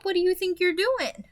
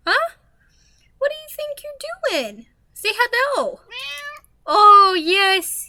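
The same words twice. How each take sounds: First: Said in the usual way. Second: High pet talk. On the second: Real, not acted. Asking the cat on her lap what it's doing, high pet voice.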